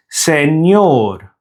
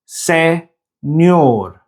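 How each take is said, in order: First: Said in the usual way. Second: Señor broken as se, nyor with a gap; syllable by syllable. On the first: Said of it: "other Spanish words containing the ñ". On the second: Shown as a demonstration. Teacher showing Spanish words with ñ, syllable by syllable. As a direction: say señor in two slow pieces, ñ starting the second.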